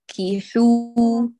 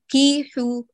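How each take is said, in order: First: The i vowel is kept short. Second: The i vowel is stretched out long. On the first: The speaker calls it right. "أتم الكسرة وأحكمي، حركة واحدة كافية" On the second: The speaker calls it wrong. "لا تشبع الحركة، تقولي فانكيحو كيحو"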